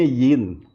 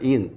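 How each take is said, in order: First: The word begins with a y sound. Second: The word begins directly with a vowel. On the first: The speaker calls it wrong. "Biasanya umat awam membacanya yin. Y, ada Y-nya" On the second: The speaker calls it right. "Padahal ah. pengucapannya adalah in"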